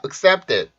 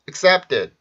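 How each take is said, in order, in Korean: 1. 이어지는 자음은 평음이에요, 경음이 아니에요. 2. 이어지는 자음은 경음이에요, 뻣뻣하게 들려요. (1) "이 아니라" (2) "된소리로 변하게 돼요"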